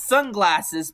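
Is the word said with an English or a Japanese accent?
English. It is said with a plain English accent.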